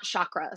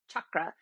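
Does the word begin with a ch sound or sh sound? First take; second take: sh; ch. First: The word begins with a soft sh sound. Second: The word begins with a hard ch sound. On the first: The speaker calls it wrong. "And it's not chakra" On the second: The speaker calls it right. "the word chakra is a hard CH. It's chakra"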